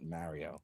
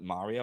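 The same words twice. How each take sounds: First: Mario is said with a Philadelphia accent. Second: Mario is said in the general, standard way. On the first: The speaker calls it wrong. "I always called it Mario" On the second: The speaker calls it right. "I never said it right either. I never called it Mario"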